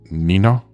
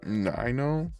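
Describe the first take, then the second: First: The name is said at a faster pace. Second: The name is said at a slower pace. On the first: The speaker calls it right. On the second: The speaker calls it wrong.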